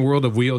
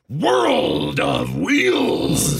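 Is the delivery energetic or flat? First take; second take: flat; energetic. First: It is said in a plain, flat voice. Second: It is said in a big, energetic voice. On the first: The speaker calls it wrong. "instead of saying World of Wheels" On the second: The speaker calls it right. "should I say something like World of Wheels?"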